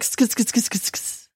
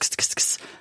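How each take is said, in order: First: The hissing sounds come with a vocal sound. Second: Only plain hissing sounds, with no voice added. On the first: The speaker calls it right. "there's a vocalization that goes along with it" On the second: The speaker calls it wrong. "It's not just"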